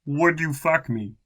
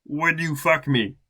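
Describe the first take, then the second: First: Flat character read, again. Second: Flat character read. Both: Acted. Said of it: "No question mark".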